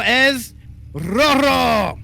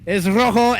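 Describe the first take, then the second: First: Stretched, high announcer call on rojo; lucha libre announcer. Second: Spanish announcer call; lucha libre announcer. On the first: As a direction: drag out es rojo slowly like a ring announcer. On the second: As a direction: announce it grandly. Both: Acted. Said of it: "should we go in Spanish".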